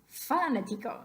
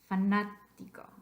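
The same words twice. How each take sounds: First: The stress is on the first syllable. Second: The stress is on the second syllable. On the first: The speaker calls it wrong. "What about the first one?" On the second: The speaker calls it right. "It's the third syllable back"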